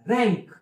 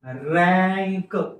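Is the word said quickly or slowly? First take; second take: quickly; slowly. First: The word is said quickly as one unit. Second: The word is said slowly, sound by sound. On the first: It is how the word is read in English. The speaker calls it right. "इंग्रजीत वाचताना पटकन उच्चार हवा" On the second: It shows how the sounds build the word. The speaker calls it wrong. "वाचताना मी हळूहळू का वाचून दाखवत आहे"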